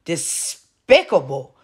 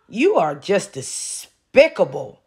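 First: "Despicable" spoken slowly, each syllable pulled apart; drawn-out despicable. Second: Slow, deliberate "despicable" with every syllable drawn out. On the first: Repeating the word to Shanae, slow and contemptuous. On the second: Scolding Shanae on the live stream, slow and deliberate. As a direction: lean on "despicable", stretching it slowly. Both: Shown as a demonstration. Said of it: "And yes, I said it like that on purpose".

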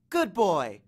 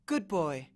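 First: Firm praise to a dog; dog-command praise. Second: Subdued praise with sadness; melancholy, uncertain. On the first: Annabeth to the monster dog, commanding praise. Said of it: "the same tone she was using on the dog". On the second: Annabeth says farewell to Cerberus, melancholy. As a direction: praise the dog wistfully. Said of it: "her voice sounded melancholy and uncertain". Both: A narrator's reading.

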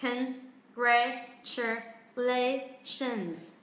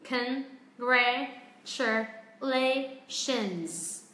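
First: Congratulations very slow with weight on la; slow Congratulations stressing the la syllable; stress on fourth syllable. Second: Congratulations spelled out syllable by syllable, very slow and even, no syllable stressed; flat, very slow Congratulations with every syllable equal. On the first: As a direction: stretch out Congratulations and land on la. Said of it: "Trọng âm rơi âm lề". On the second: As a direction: drag out Congratulations evenly with no stress anywhere. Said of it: "mình đang đọc không có trọng âm". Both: Shown as a demonstration.

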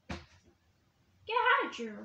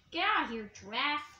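First: Slow command. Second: Said in the usual way. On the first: Pretend. Chasing away giraffe toy.

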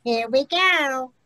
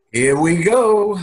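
First: Imitating "Here we go" with a thick New York accent; mocking New York accent. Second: Put-on New York accent. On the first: Shown as a demonstration. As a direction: mimic his New York "go". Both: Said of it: "making fun of my New York accent".

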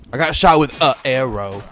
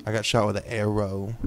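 First: Louder, indignant repeat; annoyed. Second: Said in the usual way. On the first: Real, not acted. Gamer shot by an archer, louder indignant complaint. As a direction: complain it to the room. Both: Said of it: "repeated louder".

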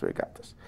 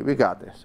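First: Fading to a whispered pep talk. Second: Said in the usual way. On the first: Real, not acted. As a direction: breathe it out to yourself. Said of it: "pep talk fading to whisper". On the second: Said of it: "self-pep talk fading".

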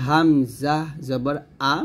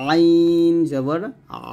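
First: "আ" clean and light from the throat's start; hamza without pressure. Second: "আইন" drawn long, "আ" squeezed in mid-throat; pressed ain. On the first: Teacher shows hamza for comparison, unpressed "আ". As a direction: let "আ" out with no squeeze. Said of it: "চাপ দিব না". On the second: Teacher shows ain for comparison, pressed "আ". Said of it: "এরকম চাপ দিতেছি". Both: Shown as a demonstration.

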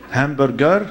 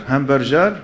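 First: "Hamburger" with hard G and rising end. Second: "hamburger" with J for G, rising end; soft G. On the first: Speaker showing the G E R confusion, "Hamburger" with hard G. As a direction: say "Hamburger" as ham-bur-ger. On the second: Speaker showing the G E R confusion, "hamburger" as ham-bur-jer. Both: Shown as a demonstration. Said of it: "every G E R is".

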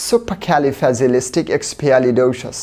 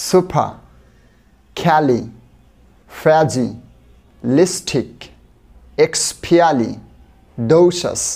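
First: The whole word in one slow flowing run. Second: Very slow, one chunk at a time with pauses; split into syllables. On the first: Teacher repeating the joined word for students, slow. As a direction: join it all together, still slow. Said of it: "আবার একবার বলি". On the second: Teacher breaking a word into chunks for students, very slow. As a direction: break the word apart slowly for learners. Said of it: "আস্তে আস্তে বলি, চলুন". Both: Shown as a demonstration.

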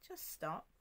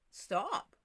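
First: A soft, unhurried "Just stop."; a calm, softer take of the command; calmly. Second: Jesus commanding the storm, firm and sure; with authority. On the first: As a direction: let "Just stop." fall gently and calm. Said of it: "You know, calmly". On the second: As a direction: say "Stop." like a command that cannot be refused. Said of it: "with authority". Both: Retold or imitated.

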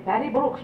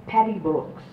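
First: Higher Irish nun voice with "Patty Brooks" called out rising; scolding Irish nun. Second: Said in the usual way. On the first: Retold or imitated. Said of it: "And they say". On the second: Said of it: "they called me Patty Brooks".

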